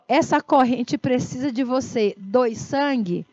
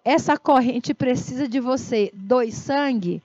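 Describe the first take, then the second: First: It is said gently and softly. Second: The same.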